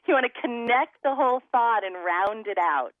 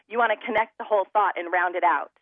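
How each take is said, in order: First: Words flow smoothly together on the breath. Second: Words start with hard glottal stops, sounding choppy. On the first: The speaker calls it right. "Do you hear the difference?" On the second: The speaker calls it wrong. "I'm smacking my vocal cords together"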